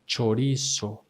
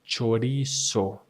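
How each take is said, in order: Both takes have the same delivery.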